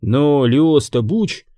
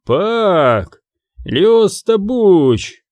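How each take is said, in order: First: Said in the usual way. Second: Slow, spiteful guard voice, pitched up; mildly rasped angry exclamation; angry wheeze. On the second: A narrator's reading. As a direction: spit out the name slowly. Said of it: "зло прохрипел второй охранник".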